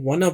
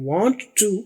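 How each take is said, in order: First: It is run together into one reduced word. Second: It is said as two full, separate words. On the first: "उसकी बजाय ये वाना बोलते हैं" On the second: "पूरा बोले वांट टू"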